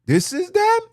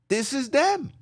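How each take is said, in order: First: Much higher, louder mock squeal. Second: Said in the usual way. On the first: Real, not acted. Preacher mocking boastful women, high squealing jab. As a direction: squeal it out in mockery.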